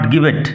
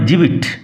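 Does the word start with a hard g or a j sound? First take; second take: hard g; j. First: The word starts with a hard g sound. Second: The word starts with a soft j sound. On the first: The speaker calls it wrong. "Not গিবেট" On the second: The speaker calls it right. "উচ্চারণ হবে জিবিট"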